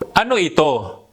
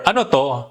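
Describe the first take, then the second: First: Ito is said in full with two syllables. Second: Ito is shortened to the single syllable to.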